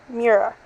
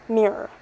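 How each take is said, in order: The two takes are said the same way.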